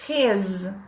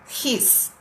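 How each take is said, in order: First: The word ends with a z sound. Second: The word ends with an s sound. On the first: "de zebra" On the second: "de sapo"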